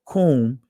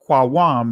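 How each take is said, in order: First: The word is said with the modern Israeli pronunciation. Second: The word is said with the ancient pronunciation. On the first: "is the Israeli pronunciation of it" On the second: "is the ancient pronunciation of rise up"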